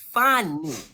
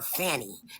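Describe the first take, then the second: First: The name's vowel rhymes with bunny. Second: The name's vowel rhymes with nanny. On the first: The speaker calls it right. "now that's the correct pronunciation" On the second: The speaker calls it wrong. "That's why y'all want to call her Fanny"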